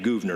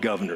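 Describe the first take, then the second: First: It is not said like the word governor. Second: It is said just like the word governor. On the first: The speaker calls it right. "that's his name, Gouverneur" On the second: The speaker calls it wrong. "not governor"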